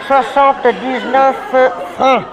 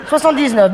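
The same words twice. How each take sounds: First: Slow, pointed repeat. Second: Said in the usual way. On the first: Shown as a demonstration. Waiter repeating the price to an inattentive table, slowly. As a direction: spell out "Soixante-dix-neuf francs" slowly, word by word. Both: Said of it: "je ne le répéterai pas".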